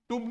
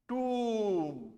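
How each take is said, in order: First: The vowel is short. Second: The vowel is long. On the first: The speaker calls it wrong. "टूम नहीं है" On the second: The speaker calls it right. "That is a longer sound"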